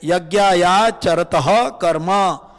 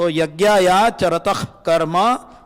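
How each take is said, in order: First: Charatah ends with an extra echo vowel, like taha. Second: Charatah ends in a short breathy tah, no vowel. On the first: The speaker calls it wrong. "which is incorrect" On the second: The speaker calls it right. "That should be the right pronunciation"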